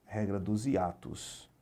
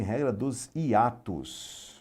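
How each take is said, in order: First: Slow repeat. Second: Regra dos hiatos said very slowly, each word weighed; slow emphatic. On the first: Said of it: "teacher repeats the rule". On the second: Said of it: "teacher stresses the rule". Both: Shown as a demonstration.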